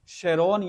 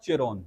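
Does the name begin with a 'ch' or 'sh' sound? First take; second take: sh; ch. First: The name begins with a 'sh' sound. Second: The name begins with a 'ch' sound. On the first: "दोनों pronounce किया जाता है इसको" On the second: "दोनों pronounce किया जाता है इसको"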